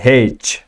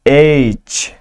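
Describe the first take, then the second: First: The letter name starts with an 'h' sound. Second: The letter name starts directly with a vowel.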